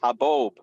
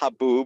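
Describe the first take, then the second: First: The second vowel is a long O. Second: The second vowel is an oo sound. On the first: The speaker calls it right. "that's a long O" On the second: The speaker calls it wrong. "It's not haboob"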